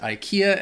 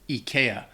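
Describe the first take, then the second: First: It is said with an English-speaking pronunciation. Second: It is said with a Swedish pronunciation. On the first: "in the U S or, or Britain, I think most people pronounce it" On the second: "in Sweden they, they say"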